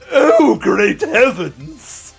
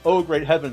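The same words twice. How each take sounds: First: It is said in a hugely exaggerated way. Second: It is said in a plain, normal way.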